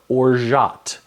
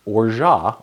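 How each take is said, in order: First: Orgeat said slowly as "or-zhat"; orgeat in careful syllables, "or... zhat"; alternative pronunciation. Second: Orgeat said slowly as "or-zhah"; pronunciation demo. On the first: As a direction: sound the final T in orgeat. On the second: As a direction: say Orgeat carefully with a silent T. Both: Shown as a demonstration. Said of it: "it's hard to pronounce".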